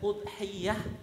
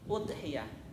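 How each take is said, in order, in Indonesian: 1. Bunyi 'y' dibaca panjang, ganda. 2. Bunyi 'y' dibaca pendek, tunggal. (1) "Bisa ditasydidkan" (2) "mukhaffafah, tidak ditasydidkan"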